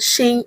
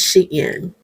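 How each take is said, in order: First: The name is said as one syllable. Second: The name is said as two syllables. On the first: The speaker calls it wrong. "It is not Sheen" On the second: The speaker calls it right. "it's Shein"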